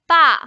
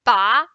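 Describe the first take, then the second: First: "ba" loud and falling from high; short falling "ba"; correct fourth tone. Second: "ba" rising instead of falling; loud rising "ba"; wrong tone for dad. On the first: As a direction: drop "ba" firmly downward. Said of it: "if we call dad, we say ba". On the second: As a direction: slide "ba" upward like a question. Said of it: "we can't say ba". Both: Shown as a demonstration.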